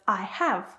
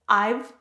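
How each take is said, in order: First: The verb is said as a separate full word. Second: The verb is shortened and joined to the pronoun. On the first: "instead of I have" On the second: "contractions such as I've"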